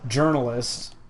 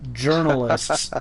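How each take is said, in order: First: The word is said in a plain, neutral tone. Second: The word is said in a mocking, scare-quoted tone.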